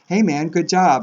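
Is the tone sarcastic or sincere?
sincere. It is said sincerely, meaning it.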